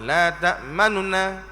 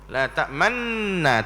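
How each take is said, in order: First: The first nun's vowel is said very briefly. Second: The two nun sounds merge into one nasal. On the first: "dia sebut sikit saja baris nun yang pertama" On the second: "dihilangkan nun yang pertama, dengung idgham masuk kepada nun yang kedua"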